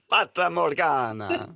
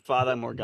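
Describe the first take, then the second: First: It is said in an exaggerated Italian accent. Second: It is said in the speaker's plain accent.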